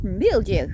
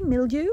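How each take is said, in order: First: Said in the usual way. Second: Mildiou said lightly in a mild English accent, ending on a rise; a light English-accent take on mildiou. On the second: Shown as a demonstration. Gardener jokes mildiou sounds like English mildew, in English accent. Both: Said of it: "Si je le fais avec l'accent anglais".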